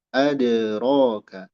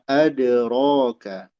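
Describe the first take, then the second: Both takes have the same delivery.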